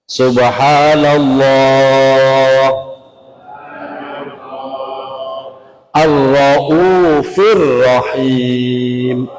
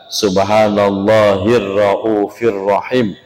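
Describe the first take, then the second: First: Allah and Ar-Rauf are said as separate words. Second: Allah runs straight into Rauf with a linking sound.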